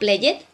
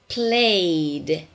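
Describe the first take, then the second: First: The ending is not said as a D sound. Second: The ending is said as a D sound. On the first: The speaker calls it wrong. "Not played" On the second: The speaker calls it right. "Can you hear the D?"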